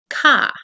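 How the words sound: It is said in a Northeastern accent. "students who are from the Northeast, ... might say ka"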